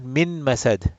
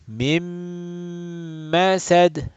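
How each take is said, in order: First: The n sound is pronounced clearly before m. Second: The n merges into the following m sound. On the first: The speaker calls it wrong. "not min masad" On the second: The speaker calls it right. "So noon got assimilated with into meme"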